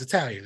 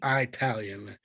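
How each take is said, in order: First: It is said in a plain, ordinary manner. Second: It is said in a drawling, folksy old-timer manner. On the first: The speaker calls it right. "It's not. It's Italian" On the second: The speaker calls it wrong. "saying it like an old prospector"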